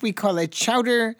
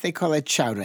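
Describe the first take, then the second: First: The word is said in a Midwestern accent. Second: The word is said in an Eastern accent. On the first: "In the Midwest, we call it chowder" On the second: "Out East, they call it chowder"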